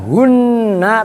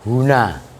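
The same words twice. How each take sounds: First: The n sound is held long and doubled. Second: The n sound is short and light. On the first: The speaker calls it wrong. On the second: The speaker calls it right. "tapi huna"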